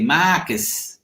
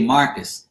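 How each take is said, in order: First: Imitated Boston Marcus, flat open vowel without the R; Boston accent. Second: Said in the usual way. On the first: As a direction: mimic Bostonians saying Marcus. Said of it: "And they say". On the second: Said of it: "I say Marcus".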